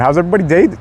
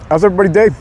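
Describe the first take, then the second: First: Said in the usual way. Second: Near voice crack, a bit higher; voice almost cracking. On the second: Real, not acted. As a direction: let the voice nearly crack. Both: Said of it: "almost had a voice crack".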